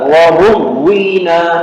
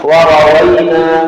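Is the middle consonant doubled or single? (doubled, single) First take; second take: doubled; single. First: The middle consonant is doubled. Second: The middle consonant is single. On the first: This is the reading found in some books. The speaker calls it wrong. "في بعض الكتب بالشدة" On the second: This is the more eloquent reading. The speaker calls it right. "لكن الأفصح وروينا بفتح الواو"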